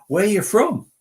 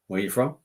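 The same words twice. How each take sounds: First: Loud, high mock questioning; exaggerated Washington stranger. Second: Said in the usual way. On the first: Retelling a Washington man's holiday question, loud and exaggerated. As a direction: blurt it out as a hammed-up stranger. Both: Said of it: "he didn't say it like that".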